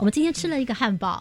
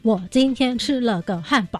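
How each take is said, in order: First: The words flow together without breaks. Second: Each word is said separately, with breaks.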